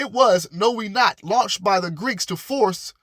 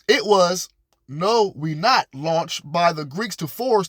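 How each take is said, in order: First: The phrase is read at a normal, quicker pace. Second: The phrase is read slowly and deliberately.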